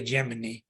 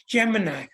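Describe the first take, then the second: First: Gemini, rhyming its end with "knee"; common variant of Gemini. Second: Gemini, rhyming its end with "sigh"; correct pronunciation of Gemini. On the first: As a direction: Gemini ending in "ee". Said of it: "a lot of people say". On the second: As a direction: Gemini ending in a clear "eye". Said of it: "is how it's pronounced". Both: Shown as a demonstration.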